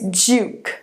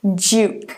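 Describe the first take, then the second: No difference in how they are said.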